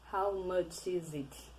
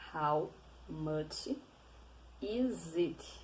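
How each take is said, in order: First: It is said fast. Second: It is said slowly.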